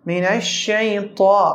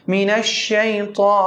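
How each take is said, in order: No difference in how they are said.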